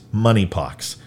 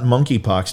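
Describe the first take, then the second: First: The K sound is left out of the word. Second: The K sound is pronounced in the word. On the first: The speaker calls it right. "The K is silent also, To say it correctly" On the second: The speaker calls it wrong. "It's not monkeypox"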